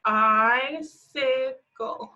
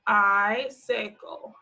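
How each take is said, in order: First: Very slow sounding out. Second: Slow sounding out. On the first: Teacher drawing out "Icicle" so kids hear both sounds. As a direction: drag "Icicle" out very slowly, rising at the end. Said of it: "two I sounds in that one". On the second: Teacher sounding out "Icicle" slowly for kids. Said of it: "our last one is icicle". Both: Shown as a demonstration.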